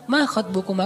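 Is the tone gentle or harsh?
gentle. It is said softly and politely.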